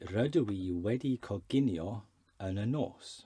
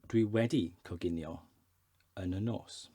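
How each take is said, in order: First: The opening is said in full as rydw i. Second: The opening is contracted to a short dwi. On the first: This is the formal way to say it. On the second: This is the simplified conversational way to say it.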